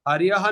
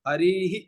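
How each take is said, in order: First: The word ends with a 'yah' sound. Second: The word ends with an echoed 'hi' sound. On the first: The speaker calls it wrong. "हरियह नहीं होता" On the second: The speaker calls it right.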